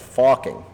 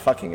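First: The vowel is an 'o' sound, as in 'focking'. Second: The vowel is a plain English 'uh' sound. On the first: The speaker calls it right. "It's F-O-C-K-I-N-G" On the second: The speaker calls it wrong. "It's not fucking"

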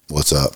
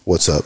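First: It is said in a drowsy, sleepy voice. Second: It is said in a lively, upbeat voice. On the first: The speaker is indifferent to the listener. The speaker calls it wrong. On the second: The speaker is glad to see the listener. The speaker calls it right.

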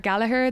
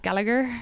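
First: The name is said the Irish way. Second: The name is said the American way. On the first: This is the name's original pronunciation. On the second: This is how people there pronounce it.

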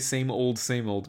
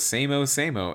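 First: Both words end with a clear 'old'. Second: Both words are cut short to 'same-o'. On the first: The speaker calls it right. "That's not how you say same old, same old" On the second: The speaker calls it wrong. "this guy goes same-o, same-o"

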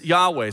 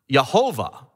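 First: The name is said with two syllables. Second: The name is said with three syllables. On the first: "the one way to pronounce it is Yahweh" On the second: "it could be pronounced Yehovah"

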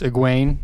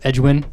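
First: The name begins with a plain 'eg' sound. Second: The name begins with an 'edg' sound. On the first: The speaker calls it right. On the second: The speaker calls it wrong.

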